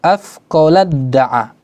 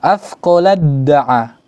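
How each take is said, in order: No difference in how they are said.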